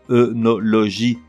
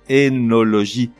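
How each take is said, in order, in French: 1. Le mot commence par le son 'eu'. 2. Le mot commence par le son 'é'. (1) "on le prononce œnologie. Erreur" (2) "la bonne prononciation est énologie, comme s'il s'écrivait avec un E"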